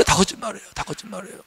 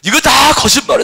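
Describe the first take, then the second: First: Softer repeated denial; fading soft repeat; quiet echo. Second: Louder firm declaration; firm loud rebuttal. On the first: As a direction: let the words fade away. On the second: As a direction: proclaim the lie boldly. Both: Acted.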